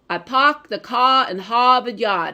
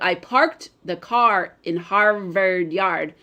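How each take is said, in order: First: The R sounds after vowels are dropped. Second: The R sounds after vowels are pronounced. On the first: This is how people from Boston say it. "people from Boston will drop their R's, meaning like they'll say" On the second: This is the usual way to say it. "instead of"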